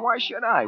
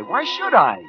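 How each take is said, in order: First: High-pitched defensive question. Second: Very high, louder protest; defensive outburst. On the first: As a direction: brush the guilt off, pitched high. Defensive self-questioning, first time. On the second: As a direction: throw the question out, pitched way up. Repeats it more forcefully. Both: Acted.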